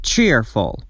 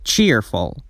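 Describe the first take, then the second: First: Said in the usual way. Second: Cheerful with a clearly held long ee in the first syllable. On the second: Shown as a demonstration. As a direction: stretch the ee of cheerful, chee-rful. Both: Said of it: "صدای لانگ ای وجود داره".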